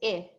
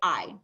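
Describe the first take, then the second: First: The vowel is the short sound, as in it. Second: The vowel is the long sound, like eye. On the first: "The short vowel sound for I is" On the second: "the I is making the long sound, so it's going to say its name"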